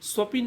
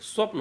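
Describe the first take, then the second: First: An i vowel comes between p and n. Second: P and n are joined with no vowel. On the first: The speaker calls it wrong. "स्वपिन नहीं होता है" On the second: The speaker calls it right. "स्वप्न होता है"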